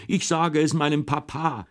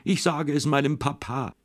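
First: Crying yell. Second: Tearful threat. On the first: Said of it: "hat furchtbar geweint und hat immer geschrien". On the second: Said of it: "hat immer geschrien". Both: A narrator's reading.

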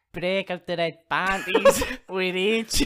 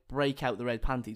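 First: Slow, loud, bad Irish accent; badly faked Irish accent, words drawn out; hammed-up Irish fighter, breaking into laughter; Conor McGregor. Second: Said in the usual way. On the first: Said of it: "he says it exactly like this".

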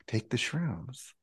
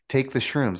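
First: Much softer, slow inner prompt. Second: Higher, firm inner command; the voice inside insists. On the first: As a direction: let it float up quietly from within. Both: Retold or imitated. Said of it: "not outside voice".

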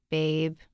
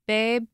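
First: Said in the usual way. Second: Babe? called out higher and louder, rising like a shout up the stairs; calling out babe. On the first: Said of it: "narrator repeats the word flatly". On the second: A narrator's reading. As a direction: call Babe? upward as a raised question. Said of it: "The two were always yelling at each other".

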